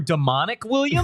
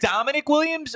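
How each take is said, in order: First: Demonic said duh-MON-ik, like the adjective; "Demonic" stressed in the middle, duh-MON-ik; stress on second syllable. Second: Dominic said DOM-uh-nik, stress up front; "Dominic" as the ordinary name, DOM-uh-nik; stress on first syllable. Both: Shown as a demonstration. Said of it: "Are we sure that it's pronounced Dominic".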